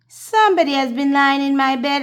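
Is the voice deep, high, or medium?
high. It is said in a wee little bear voice.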